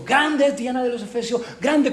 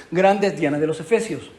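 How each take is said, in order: First: Pitched up high like a frenzied mob; fervent crowd cry. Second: Said in the usual way. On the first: Retold or imitated. Preacher imitates the fevered Ephesian crowd, a high mock cry. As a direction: raise it high like a chanting crowd, with a rising end. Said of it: "la gente está gritando enfervorecida". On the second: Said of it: "¿cuánto tardó en decir eso?".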